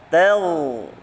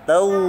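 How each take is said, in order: First: The vowel sounds open, without rounding. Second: The vowel sounds rounded with pursed lips. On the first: The speaker calls it right. "Cukup membuka saja lisannya" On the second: The speaker calls it wrong. "diucapkan dengan mencucu juga salah"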